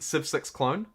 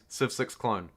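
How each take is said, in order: First: The voice rises at the end. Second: The voice falls at the end. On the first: "that's just my upward inflection" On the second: "Not with a question mark"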